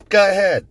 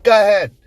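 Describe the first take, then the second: First: "Go ahead" mocked in a Chicago accent, much higher and louder. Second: Put-on "Go ahead" again in a Chicago accent, much higher and louder. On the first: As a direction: imitate the wife's Chicago accent on "Go ahead", pitched way up. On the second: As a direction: repeat "Go ahead" in the wife's Chicago accent, pitched way up. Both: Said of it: "Chicago accent or Illinois accent".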